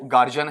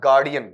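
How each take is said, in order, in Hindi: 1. बीच का व्यंजन j जैसी आवाज़ करता है। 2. बीच का व्यंजन d जैसी आवाज़ करता है। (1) "इसमें अपन क्या गलती करते हैं" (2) "गार्ड से बना है"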